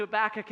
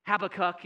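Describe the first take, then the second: First: Said in the usual way. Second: "Habakkuk" with the emphasis moved off the usual middle syllable; shifted syllable stress. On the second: Shown as a demonstration. Preacher allowing another way to say "Habakkuk", shifted syllable stress. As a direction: say "Habakkuk" as HAB-a-kuk, not ha-BAK-uk. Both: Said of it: "change the emphasis on the syllable".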